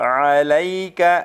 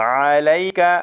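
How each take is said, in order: Both takes have the same delivery.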